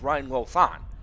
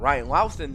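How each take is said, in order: First: The surname's first vowel sounds like 'oh'. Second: The surname's first vowel sounds like 'ow'. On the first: The speaker calls it right. "the correct pronunciation of his name is" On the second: The speaker calls it wrong. "We did call Ryan Ryan Louthan the entire season before"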